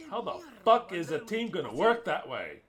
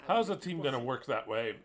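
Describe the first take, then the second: First: The question again, pushed louder and cursing; louder angry repeat. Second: Said in the usual way. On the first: Real, not acted. Angry fan at the coach, the question repeated louder. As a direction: swear through it, building the anger.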